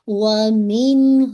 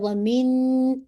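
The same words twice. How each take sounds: First: The n sound is released quickly and clearly. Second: The n sound is held and drawn out. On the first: The speaker calls it right. "बस आपने जाहिर करना है ... फिर आप आगे चले जाएंगे" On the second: The speaker calls it wrong. "ऐसे नहीं पढ़ सकते ... ऐसे करके होल्ड भी नहीं कर सकते"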